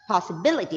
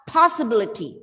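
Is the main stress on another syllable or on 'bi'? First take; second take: bi; another. First: The stress falls on the syllable 'bi'. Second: The stress falls on a syllable other than 'bi'. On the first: The speaker calls it right. "the syllable B I. B is uh, B is stressed. That is possibility" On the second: The speaker calls it wrong. "It's not possibility"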